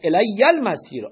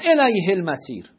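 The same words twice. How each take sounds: First: الی المسیر with the y held long and doubled, as elæjːæ lmæsir. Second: الیه المسیر read with a clear h, as elæjhe lmæsir; rejected reading. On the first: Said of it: "با تشدید". (با تشدید روی ی) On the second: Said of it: "بنویسید الی المسیر، نه الیه المسیر". (تلفظ نادرست با ه) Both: Shown as a demonstration.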